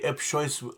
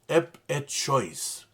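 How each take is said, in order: First: The middle syllable is dropped, giving two syllables. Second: The middle syllable is kept, giving three syllables. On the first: It is simplified to be easier to say. "Some people say ep choice uh, to, to make it easier for pronunciation" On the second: It is the full, proper form. "the proper pronunciation is ep et choice"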